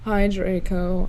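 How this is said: The greeting is said in a gloomy, depressed tone. The speaker calls it right. "I said in a depressed voice"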